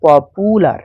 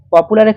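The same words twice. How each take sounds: First: পপুলার slowed, the middle syllable drawn out. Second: Said in the usual way. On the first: Shown as a demonstration. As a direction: stretch পপুলার into প-পু-লার. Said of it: "কয়েকটা সিলেবেলে তোমাকে ভাঙতে হয়". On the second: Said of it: "পপুলারের ক্ষেত্রে".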